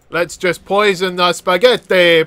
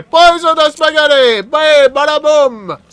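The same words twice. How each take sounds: First: Said in the usual way. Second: High, loud, theatrical exclamation; playful crowing. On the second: Pretend. Player poisoning the spaghetti, playful crowing. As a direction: crow it high, dragging out the end. Gleeful repeat while poisoning food.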